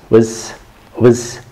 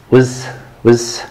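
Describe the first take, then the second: No difference in how they are said.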